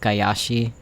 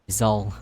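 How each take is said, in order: First: The name is said as Gayashi. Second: The name is said as Gizal. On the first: The speaker calls it wrong. "I always pronounce it as Gayashi for some reason" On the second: The speaker calls it right. "this game is teaching me it's G- Gizal"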